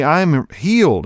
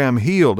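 First: I'm healed said slow and higher, leaning on healed; insistent slow. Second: Said in the usual way. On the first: Retold or imitated. Wife insisting to husband she is healed, slow emphatic. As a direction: stress healed, drawn out and emphatic. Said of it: "No, no, sweetie". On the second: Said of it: "And she goes".

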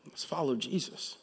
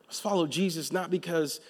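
First: Soft call. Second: Said in the usual way. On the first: Shown as a demonstration. Preacher quietly inviting the church to follow. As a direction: follow said softly, rising.

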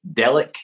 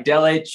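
First: "[name]" ending in a hard K; name variant with K. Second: "[name]" ending in a CH sound; name variant with CH. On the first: Guest listing accepted versions of his surname, "[name]" said DELL-ick. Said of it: "whatever you want". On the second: Guest listing accepted versions of his surname, "[name]" said DELL-itch. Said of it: "Look, I'll take [name]". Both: Shown as a demonstration.

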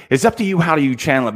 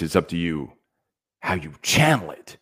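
First: Said in the usual way. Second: "channel" set apart and punched inside a low, measured line; stress on "channel". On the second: Shown as a demonstration. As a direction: lean hard on the word "channel". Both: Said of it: "I emphasize the word channel it".

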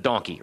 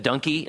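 First: Said in the usual way. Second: Put-on "donkey" in a Maryland northeastern accent. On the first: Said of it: "so he said donkey instead of donkey". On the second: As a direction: say "donkey" as a thick Marylander would. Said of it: "he had a very thick sort of, you know, Maryland northeastern accent".

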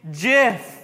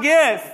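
First: "gif" said as "jiff"; soft-g gif. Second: "gif" with a hard g as in gift. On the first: Pastor correcting congregation, soft-g gif. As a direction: say "gif" starting with a J sound. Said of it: "with a J". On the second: Pastor rejecting congregation's answer, hard-g gif. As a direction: say "gif" starting like "give". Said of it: "You're wrong". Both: Shown as a demonstration.

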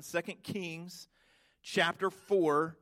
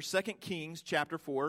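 First: Slow, word by word so they can write; slow dictation. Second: Said in the usual way. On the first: Shown as a demonstration. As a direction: spell out the reference slowly for note-takers. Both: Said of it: "I encourage you to write it down".

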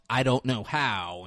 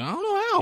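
First: Said in the usual way. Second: Very high, squeaky mock helplessness; high panicked mimicry. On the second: Kid told to turn the light on, high-pitched mock panic.

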